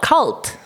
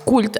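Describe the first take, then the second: First: The vowel sounds like in 'cut'. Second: The vowel sounds like in 'cool'. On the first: This is how the spelling suggests it. "spelled cult" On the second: This is how it is said locally. "they pronounce it here uh, as cult"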